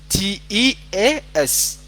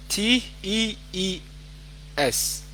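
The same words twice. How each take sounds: First: Slow "T E A S", each letter separate; spelling out the correction. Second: Slow "T E E S", letter by letter; spelling out the mistake. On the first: Teacher gives the correct spelling, slowly spelt "T E A S". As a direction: spell "T E A S" out deliberately. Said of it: "Tea waa T E A S". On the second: Teacher shows student's wrong spelling, slowly spelt "T E E S". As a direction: spell "T E E S" with a gap before S. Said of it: "That is wrong". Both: Shown as a demonstration.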